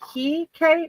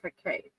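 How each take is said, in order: First: The first vowel is a long, strong E. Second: The first vowel is short and plain. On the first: "like a strong E" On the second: "or just Hecate"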